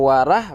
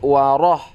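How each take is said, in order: First: The r syllable is light with a plain a. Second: The r syllable is heavy, leaning toward o. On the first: The speaker calls it wrong. "kalau warah berarti belum tebal" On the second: The speaker calls it right. "tapi waroh"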